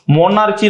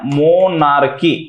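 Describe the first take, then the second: First: The consonant after 'monar' is a 'ch' sound. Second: The consonant after 'monar' is a 'k' sound. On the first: The speaker calls it wrong. "मोनार्ची नाही हा" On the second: The speaker calls it right. "मोनार्की असा त्याचा उच्चार आहे"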